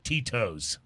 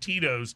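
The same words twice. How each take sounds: First: The middle T is crisp and over-enunciated. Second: The middle T is soft, not sharply pronounced. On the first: The speaker calls it wrong. "Over enunciating the T in Tito's" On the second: The speaker calls it right. "the vodka brand is called Tito's"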